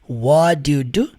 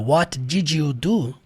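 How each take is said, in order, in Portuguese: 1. 'Did' é reduzido a um som de d depois de 'what'. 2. 'Did' é pronunciado como uma palavra completa e separada. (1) "o what vai terminar com som de D" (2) "Que é o que a gente aprende na escola"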